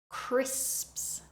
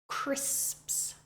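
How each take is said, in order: The two takes are said the same way.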